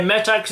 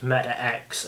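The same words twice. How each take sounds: First: "Metax" run together as one word; first-guess pronunciation. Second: "Meta X" split, X as a separate letter; second-guess pronunciation. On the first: Host admits his first guess, mispronounced "Metax" as one word. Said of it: "how I first thought it was pronounced". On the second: Host recalls his second guess, "Meta X" with separate letter. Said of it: "the X is bigger than the rest". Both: Shown as a demonstration.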